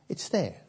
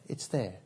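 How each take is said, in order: First: Said in the usual way. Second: Soft echo. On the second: Shown as a demonstration. Repeats phrase, fading away.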